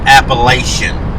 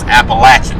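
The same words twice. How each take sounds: First: It uses the outsider pronunciation of the word. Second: It uses the local, hillbilly pronunciation of the word. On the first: The speaker calls it wrong. "It's not Appalachian" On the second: The speaker calls it right. "it's Appalachian. And Appalachian is said with hillbilly in it"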